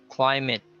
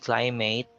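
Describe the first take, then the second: First: The ending sounds like 'it' in 'kit'. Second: The ending sounds like the word 'eight'. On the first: The speaker calls it right. "it is sounded as kit. So you say" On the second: The speaker calls it wrong. "you don't say climate"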